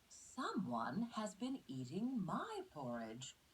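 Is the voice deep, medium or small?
medium. It is said in a medium-sized voice.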